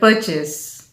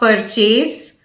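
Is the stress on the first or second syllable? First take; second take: first; second. First: The stress is on the first syllable. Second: The stress is on the second syllable. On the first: The speaker calls it right. "with a stress on the first syllable per" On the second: The speaker calls it wrong. "It is not purchase"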